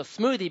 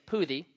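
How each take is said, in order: First: Said in the usual way. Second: Poothie said with a P sound in place of the S in smoothie; toddler lisp. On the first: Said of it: "So smoothie became poothie". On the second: Shown as a demonstration. Pastor showing how his daughter said smoothie, saying poothie. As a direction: say poothie, dropping the S the way a toddler would. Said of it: "she could not say the letter S".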